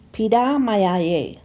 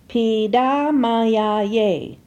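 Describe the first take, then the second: First: It is said at normal conversational speed. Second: It is said slowly, each syllable distinct. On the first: "second for normal pronunciation" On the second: "First for enunciation"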